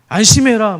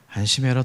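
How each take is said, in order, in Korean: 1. 큰 소리로 거칠게 말합니다. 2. 부드럽고 다정하게, 간절하게 말합니다. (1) "더 놀라라고 안심해라 뭐 이런 식으로 얘기하지는 않았기" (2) "큰 소리가 아니라 뭔가 부드러우면서 그러면서도 간절한 심령을 심정을 좀 전할 수 있는 어조로"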